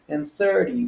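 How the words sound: It is said in a Southern American accent.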